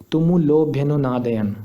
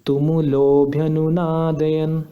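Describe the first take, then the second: First: तुमुलोभ्यनुनादयन read quickly, no vowel held; तुमुलोभ्यनुनादयन said short, the ओ not stretched; plain reading. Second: तुमुलोभ्यनुनादयन with the ओ after ल held long; slow तुमुलोभ्यनुनादयन, stretching the लो; pluta vowel. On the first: Teacher shows the word without the pluta. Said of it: "तो इसको कैसे pronounce करते". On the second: Teacher demonstrates the pluta swar, drawn out slowly. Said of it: "इसको pronounce करेंगे ऐसे". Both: Shown as a demonstration.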